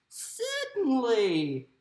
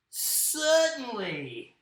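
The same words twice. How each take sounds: First: Slow, lilting Australian mama kangaroo; motherly kangaroo in an Australian accent; Australian woman. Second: Slow, drawn-out Aussie kangaroo; first-try Australian kangaroo voice. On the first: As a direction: draw it out as an Aussie woman. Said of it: "how is my Australian accent going to sound more like a woman". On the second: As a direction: stretch it out in an Australian accent. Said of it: "I'm gonna do my kangaroo like this". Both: Acted.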